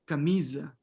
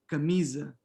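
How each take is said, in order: No difference in how they are said.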